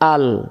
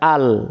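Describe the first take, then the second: First: The word ends on a bare consonant sound. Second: The word ends on a bare consonant sound.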